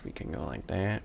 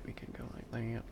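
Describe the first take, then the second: First: Said in the usual way. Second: Breathy whisper of We can go like that. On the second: Real, not acted. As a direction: drop to a private whisper. Repeats line, then whispers it.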